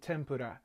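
It is said with a Japanese accent. "it's actually pronounced in Japan"

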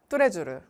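It is said with Korean-style syllables and sounds. The speaker calls it wrong. "한국어로 표현하면 뚜레쥬르인데"

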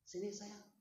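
It is said warmly, with a smiling voice. "Smile face, smile voice"

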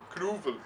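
It is said with a Dutch accent.

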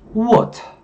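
The r is dropped and the t is crisp. "영국에서는 어떻게 한다? ... R 발음을 없애고 T 발음을 살려요"

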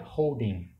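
The final g sound is dropped. This is how it is said in the United States. "nos Estados Unidos ... vira holding"

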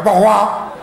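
It is said in an angry, worked-up voice.

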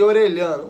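The double L has a Brazilian Portuguese sound. "vamos abrasileirar para facilitar"

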